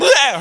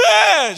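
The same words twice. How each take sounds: First: High, loud startled squeal; mock kid squeal. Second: Very high, loud startled squeal; mock kid squeal. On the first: Daughter not reacting like a child, high loud squeal. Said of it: "Her reaction wasn't". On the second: Five-year-old startled by dad, very high loud squeal. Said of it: "She wasn't like".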